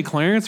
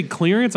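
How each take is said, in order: First: Clarence with a "clair" start; mispronounced. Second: Clearance with a "cleer" start; standard pronunciation. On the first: Admitting a habit, clarence said "clair-ence". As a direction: say clarence like the man's name. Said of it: "I always say clarence for some reason". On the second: Admitting a mispronounced word, clearance said "cleer-ance". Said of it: "I never say clearance". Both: Shown as a demonstration.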